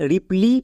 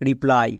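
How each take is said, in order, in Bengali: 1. শব্দটি 'ee' উচ্চারণে শেষ হয়। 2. শব্দটি 'eye' উচ্চারণে শেষ হয়। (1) "এখানে রিপ্লি হওয়ার কথা ছিল" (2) "বাট এর উচ্চারণ হচ্ছে রিপ্লাই"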